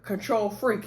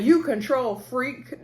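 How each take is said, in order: First: Said in the usual way. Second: Slow "control", then "freak" set apart; imitating separated words. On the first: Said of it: "Like, it's one word". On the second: Mimicking how Bernard said it to Marcel, "control" and "freak" separated. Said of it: "the way he separated the word control freak".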